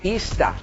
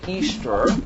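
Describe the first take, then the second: First: It is said in a Boston accent. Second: It is said in a plain, general accent.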